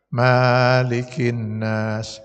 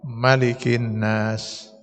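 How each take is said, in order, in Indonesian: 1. Vokal setelah huruf m dibaca panjang. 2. Vokal setelah huruf m dibaca pendek. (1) "Bisa, benar itu" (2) "Dipendekkan mimnya"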